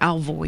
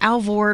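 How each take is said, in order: First: The name is said with an 'oy' sound. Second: The name is said with an 'or' sound. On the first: "It's it's Alvoid"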